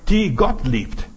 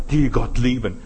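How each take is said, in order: First: Slow "die Gott liebt", each word set apart; corrected emphasis. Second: Said in the usual way. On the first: Shown as a demonstration. Preacher turning the song line round, "Gott liebt" slow and emphatic. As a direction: stretch out "Gott liebt" slowly and firmly. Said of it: "ich möchte umkehren". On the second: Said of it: "ich möchte nicht sagen".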